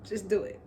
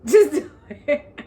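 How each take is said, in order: First: Said in the usual way. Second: Loud, higher burst cracking into laughter; emphatic and amused, real laugh breaking in; laughing outburst. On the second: Real, not acted. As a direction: blurt it out through a laugh. Repeats it louder, breaking into laughter.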